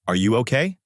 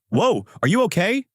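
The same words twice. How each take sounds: First: Said in the usual way. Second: High, rising worried question; worried asking. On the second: A narrator's reading. Adano asks Sasaki after she vomits, worried. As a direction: ask with startled concern, pitched well up. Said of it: "making Adano ask worriedly".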